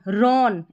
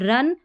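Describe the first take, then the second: First: The vowel sounds like the 'o' in 'on'. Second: The vowel sounds like the 'u' in 'run'. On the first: The speaker calls it wrong. "ऐसे देखेंगे तो रॉन नहीं" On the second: The speaker calls it right. "इसको R O N को रन पढ़ना है"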